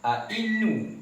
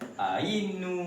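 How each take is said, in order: First: A glottal stop begins the second syllable. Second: A y sound begins the second syllable. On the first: "dia ada hamzah mudhara'ah yang berbaris kasrah" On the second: "huruf hamzah hamzah ni kita gantikan huruf ya"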